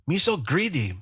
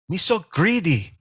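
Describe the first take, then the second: The two takes are said the same way.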